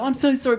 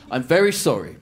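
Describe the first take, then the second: First: High, gushing mock apology; over-apologetic. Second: Said in the usual way. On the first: Showing how not to apologise, over-apologetic. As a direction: overdo the apology, pitched right up. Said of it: "because then you feel terrible about yourself". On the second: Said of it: "That's all the thing".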